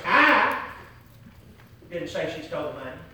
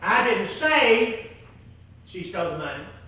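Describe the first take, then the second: First: The word I is stressed. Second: The word say is stressed. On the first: "if you didn't say it, who said it?" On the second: "If you didn't"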